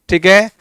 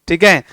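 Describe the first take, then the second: No difference in how they are said.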